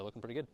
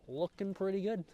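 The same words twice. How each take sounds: First: Said in the usual way. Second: Pleased. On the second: Real, not acted. Repeats praise of food.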